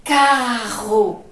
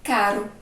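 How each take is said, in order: First: Loud, drawn-out "Carro", RR made in the throat; strong, long R. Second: "Caro" with a quick single tongue-tap R; short, weak R. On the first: Teacher demonstrating the double R, "Carro" loud and prolonged. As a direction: hit "Carro" hard and hold the guttural RR. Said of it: "O som é forte e demora mais, ó". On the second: Teacher contrasting with carro, "Caro" with short weak R. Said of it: "ele é curto e fraco". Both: Shown as a demonstration.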